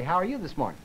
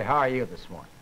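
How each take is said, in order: First: Said in the usual way. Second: Lower-pitched greeting that clashes with the friendly words; incongruent greeting. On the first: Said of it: "that's congruent". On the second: Shown as a demonstration. Lecturer showing a morning greeting that doesn't match, pitched low and incongruent. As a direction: say the greeting low, at odds with its meaning. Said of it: "that's not congruent".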